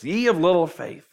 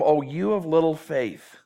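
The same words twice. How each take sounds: First: Said in the usual way. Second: Slow, kind, not condemning; patient teacher's gentle chiding; gentle rebuke. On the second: Shown as a demonstration. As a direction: say it tenderly, slowly. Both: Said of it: "Don't read it in a condemning tone".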